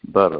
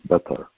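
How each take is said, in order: First: It is said in a non-British accent. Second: It is said in a British accent.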